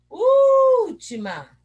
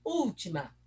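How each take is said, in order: First: ÚLTIMA shouted with a long high ÚÚÚL; calling the word. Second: Said in the usual way. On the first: Shown as a demonstration. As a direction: call out ÚLTIMA, holding the first syllable loud. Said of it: "chamando a palavrinha". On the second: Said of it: "Vamos olhar aqui".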